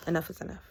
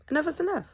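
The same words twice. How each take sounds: First: Said in the usual way. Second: ENOUGH IS ENOUGH pitched high and loud; emphatic repeat. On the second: Retold or imitated. Woman fed up with her ex, "Enough is enough" emphatic. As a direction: hit "Enough is enough" higher and louder, falling at the end.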